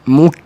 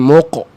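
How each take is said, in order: First: The vowel sounds like u, further forward. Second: The vowel sounds like o, deep back. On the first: The speaker calls it right. "Keluar sikit" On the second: The speaker calls it wrong. "Jangan mok. Jangan dalam"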